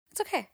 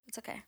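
First: Said in the usual way. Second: "It's okay." dropped to a near mutter; "It's okay." said barely aloud, inward; quiet self-reassurance. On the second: Real, not acted. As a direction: murmur "It's okay." to yourself, much softer. Consoling herself about college.

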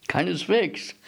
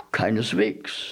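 First: "Keineswegs" said higher for emphasis; insistent, higher-pitched "Keineswegs"; emphatic denial. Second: Said in the usual way. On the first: A narrator's reading. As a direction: lift "Keineswegs" in eager contradiction. Eager rebuttal, repeated emphatically.

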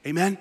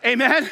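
First: Said in the usual way. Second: A bigger, stronger amen; louder amen. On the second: Shown as a demonstration. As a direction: call it out louder to the crowd. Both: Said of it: "that wasn't strong enough".

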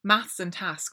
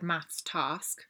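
First: Maths and task with the same short A; rhyming short A. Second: Task as "tahsk", not rhyming with maths; slow maths task, long AH in task; southern long A. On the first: Shown as a demonstration. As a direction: say task slowly with the vowel of maths. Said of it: "rhyme to me". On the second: Retold or imitated. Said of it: "but you said maths task".

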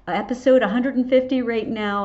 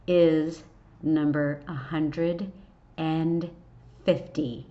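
First: Louder, higher, punching episode; excited. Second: Slow, with long pauses before fifty; dramatic pauses. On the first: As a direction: celebrate the milestone. Excited celebration of milestone. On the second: Dramatic reveal of episode number. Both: Real, not acted.

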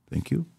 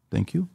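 Both takes have the same delivery.

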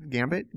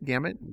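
First: "Gambit" said with a hard b, as gam-bit; "Gambit" questioned, with a rise at the end; wrong word. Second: "Gamut" said without a b, as gam-ut; "Gamut" with a falling, settled tune; corrected word. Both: Shown as a demonstration. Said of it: "Not gambit".

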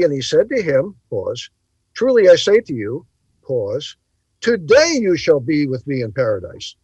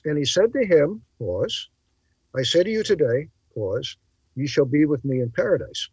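First: Reading with a spoken pause before today; phrasing the verse as Truly I say to you, pause, today you shall be; pauses marked. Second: Reading with a spoken pause before and after today; phrasing the verse as I say to you today, pause, ye shall be; pauses marked. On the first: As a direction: break the line right before today. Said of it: "it would be". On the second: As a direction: set today apart with pauses. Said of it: "Now notice". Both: Shown as a demonstration.

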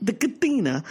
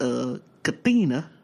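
First: The Katina, said as kuh-THEE-nuh; mispronounced Katina. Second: Katina said as kuh-TEE-nuh; mispronounced Katina. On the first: Echoing the man's mispronounced Katina, kuh-THEE-nuh. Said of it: "He was talking about the casino". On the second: Retelling the man's mispronounced Katina, kuh-TEE-nuh. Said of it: "Ain't that something?". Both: Retold or imitated.

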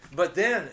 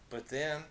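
First: Loud, much louder cut-in; excited interruption. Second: Said in the usual way. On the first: A narrator's reading. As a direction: burst in over the other. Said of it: "getting excited again". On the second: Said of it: "interrupted Ganser".

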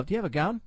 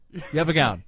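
First: "gown?" rising as a real question; asking. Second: "gown." falling as a flat answer; flat statement. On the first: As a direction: ask it, lifting the pitch on "gown?". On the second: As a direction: answer yourself, dropping the pitch on "gown.". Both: Pretend.

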